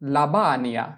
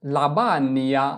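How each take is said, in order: Both takes have the same delivery.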